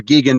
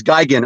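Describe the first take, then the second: First: "Gigan" said GHEE-gan; first syllable of "Gigan" rhymes with "key"; Gigan with EE sound. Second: "Gigan" said GUY-gan; first syllable of "Gigan" rhymes with "sky"; Gigan with long I. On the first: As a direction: pronounce "Gigan" with a hard G and "ee". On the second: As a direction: pronounce "Gigan" with an opening "guy". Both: Shown as a demonstration. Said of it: "depending on how you pronounce it".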